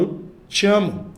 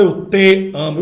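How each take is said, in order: First: "te" said weakly, joined onto "amo"; weak unstressed pronoun. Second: "te" hit hard as a separate strong syllable; overstressed pronoun. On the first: Teacher showing natural speech, unstressed "te". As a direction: let "te" slide lightly into "amo". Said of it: "eles são mais fracos". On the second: Teacher showing students what nobody says, overstressed "te". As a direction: punch "te" apart from "amo". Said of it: "Você não fala". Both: Shown as a demonstration.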